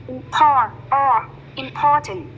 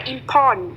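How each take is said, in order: First: "important" slow, with POR drawn out; stress on POR. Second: "important" with a reduced final syllable; alternative IMPORTANT. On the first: Teacher drills word stress, slow stressed POR in "important". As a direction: stretch and stress the middle of "important". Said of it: "để ý đến trọng âm của từ". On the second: Teacher offers an accepted variant, reduced ending in "important". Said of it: "hoặc là important đều được". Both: Shown as a demonstration.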